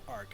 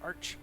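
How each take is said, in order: First: The word ends with a 'k' sound. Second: The word ends with a 'ch' sound. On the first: This is how the speaker chooses to say it. "I'm gonna call it Arc" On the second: This is how many other people say it. "A lot of other people would call it Arch"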